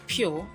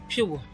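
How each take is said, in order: First: The vowel is one steady sound without gliding. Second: The vowel glides from an oo sound to uh. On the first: The speaker calls it wrong. "which is wrong pronunciation" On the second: The speaker calls it right. "The right one is pure"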